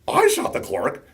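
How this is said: It is a question rising at the end.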